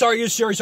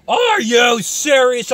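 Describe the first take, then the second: First: Said in the usual way. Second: Slow, high shout of disbelief; incredulous shout. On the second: Real, not acted. Shouting in disbelief at the doom guy, slow and high. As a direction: stretch it out in a fed-up shout.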